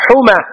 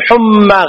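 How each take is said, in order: First: "حمى" as huma, single m; light mim. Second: "حمى" as humma, doubled m; mistaken doubled mim. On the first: Teacher modelling the scorpion-sting word, "حمى" with light m. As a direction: keep the m of "حمى" short. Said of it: "ما تقول". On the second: Teacher showing what not to say, "حمى" with heavy m. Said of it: "غلط". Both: Shown as a demonstration.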